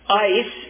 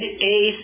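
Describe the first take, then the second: First: The word sounds like English 'ice'. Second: The word sounds like English 'ace'. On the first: This is the form often heard. "Ice is the way you'll often hear it translated" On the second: This is the form most local people use. "Ace is the way most people among us will utter the word"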